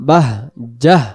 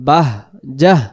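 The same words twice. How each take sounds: The two takes are said the same way.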